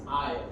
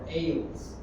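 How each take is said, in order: First: No s sound is heard in the word. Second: An s sound is heard in the word. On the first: The speaker calls it right. "the S is silent" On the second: The speaker calls it wrong. "you don't pronounce it like ... Ales"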